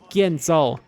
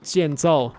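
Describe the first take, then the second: First: It is said in an older, non-modern pronunciation. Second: It is said in the modern Chinese pronunciation. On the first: "He said 建造" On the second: "not 建造 like in modern Chinese"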